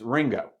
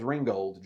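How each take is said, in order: First: The name ends with a plain 'o' sound. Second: The name ends with a full 'old' sound. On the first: This is how locals say it. The speaker calls it right. "It's Ringo" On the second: This is how people from outside the town say it. The speaker calls it wrong. "You don't say it as Ringgold"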